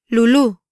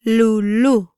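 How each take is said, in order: First: Said in the usual way. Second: "Lulú" slower, syllables separated; "Lulú" drawn out for learners; slow pronunciation demo. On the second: Shown as a demonstration. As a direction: stretch "Lulú" into two long syllables. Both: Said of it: "try pronouncing these words".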